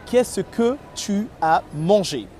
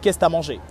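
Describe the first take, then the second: First: Every syllable of the question is pronounced fully. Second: Several syllables are dropped and run together. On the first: This is standard French. "In normal French, we would say" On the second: This is how Parisians speak. "Parisian, they will reduce word"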